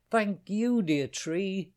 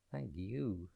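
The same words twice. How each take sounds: First: Sung, much higher and louder bright thanks; little bird sings her thanks to the tree, much higher and louder; joyful bird singing out. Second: Put-on a softer sighing old tree; the tree answers the bird with a soft sigh. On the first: Acted. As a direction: sing out the thanks with glee. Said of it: "she sang out loud". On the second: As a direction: breathe the thanks out like an old tree. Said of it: "sighed Tree".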